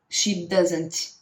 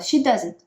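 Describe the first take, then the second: First: The final T is pronounced strongly. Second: The final T is barely pronounced. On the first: The speaker calls it wrong. "Não precisa pronunciar tanto T" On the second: The speaker calls it right. "Você pode só falar"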